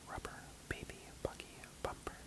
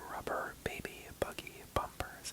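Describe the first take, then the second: First: It is said quietly, pulled back. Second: It is said projected, with more support. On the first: "now take it back"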